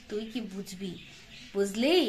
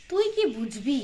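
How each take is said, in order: First: Tuই কি বুঝবি muttered softly and lower; muttered aside. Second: Said in the usual way. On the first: Shown as a demonstration. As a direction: drop it to a much softer mutter under the breath.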